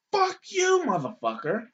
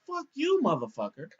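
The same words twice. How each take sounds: First: High-pitched, furious "Fuck you"; the old lady snapping back, way up high; mock old lady cursing. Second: High-pitched "Fuck you", then back down; mock old lady cursing. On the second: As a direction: quote her word for word, pitched way up.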